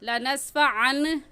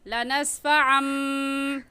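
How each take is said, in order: First: The word ends with an n sound. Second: The word ends with an m sound. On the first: The speaker calls it wrong. "लनस्फ़ा अन नहीं पढ़ेंगे" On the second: The speaker calls it right. "बल्कि कहेंगे लनस्फ़ा अम"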